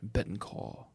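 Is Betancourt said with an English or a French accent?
French. It is said with a French-style pronunciation. "And I say Jean Betancourt"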